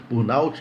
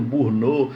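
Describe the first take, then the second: First: "burnout" said the English way, as burn-awt-chee; re-say "burnout" with an English "out" ending; careful English-style "burnout"; burnout corrected. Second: "burnout" said Portuguese-style, like bur-no; quick local "burnout"; burnout first try. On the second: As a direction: clip "burnout" with a Brazilian ending. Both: Shown as a demonstration. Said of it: "que eu acho que fala".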